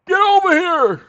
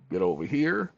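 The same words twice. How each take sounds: First: High, loud game fighter shout; Scorpion yell. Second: Said in the usual way. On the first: Retold or imitated. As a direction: bellow it like the Mortal Kombat ninja. Mortal Kombat Scorpion quote.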